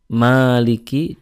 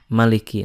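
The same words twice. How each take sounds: First: The first vowel is drawn out long. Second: The first vowel is kept short. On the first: "dengan memanjangkan maknya"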